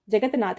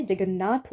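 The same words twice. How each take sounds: First: जगतनाथ said with a clear t, jaga-t-naath; जगतनाथ as the common mistake, t before naath; जगतनाथ, wrong form with t sound; wrong spelling-pronunciation. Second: जगन्नाथ with a doubled n, jagan-naath; जगन्नाथ, hold the double n; जगन्नाथ said the correct way, no t; correct pronunciation. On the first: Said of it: "जगतनाथ नहीं होता है". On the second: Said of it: "जगन्नाथ होता है". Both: Shown as a demonstration.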